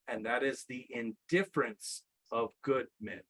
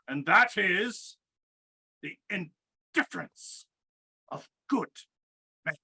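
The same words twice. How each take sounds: First: It is said in his ordinary speaking voice. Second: It is said in a put-on character voice.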